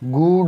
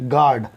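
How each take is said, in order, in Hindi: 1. g के बाद 'oo' स्वर आता है। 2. g सीधे 'ah' स्वर में चला जाता है। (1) "गूड नहीं पढ़ेंगे" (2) "यू की आवाज जी के साथ नहीं निकलती"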